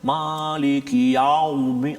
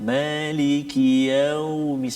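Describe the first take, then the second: First: The 'yau' sound is said harshly and forcefully. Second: The 'yau' sound is said softly and gently. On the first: The speaker calls it wrong. "jangan maliki yaumi ... Bunyi garang sangat tu" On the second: The speaker calls it right. "sebab tu kita sebut lembut"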